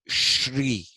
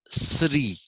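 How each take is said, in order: First: It begins with a 'sh' sound. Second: It begins with a plain 's' sound. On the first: "this is the Sha sound" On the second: "if you write with S, just an S, then it becomes Sri"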